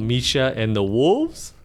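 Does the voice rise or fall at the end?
rise. The voice rises at the end, like a question.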